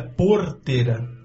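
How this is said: It has the city way of saying R. "O nosso é porteira"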